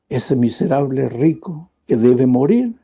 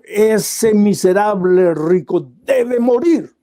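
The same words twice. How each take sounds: First: Lower, calm and loving; gentle prophet. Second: Slow, heavy royal anger; the king pounds the table and condemns; angry king. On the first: Prophet Natán gently confronts the king, tender and calm. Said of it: "lo miró con cariño y con amor". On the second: Enraged king demanding the rich man die, slow and stern. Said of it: "el rey se encolerizó ... golpeó la mesa". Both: A narrator's reading.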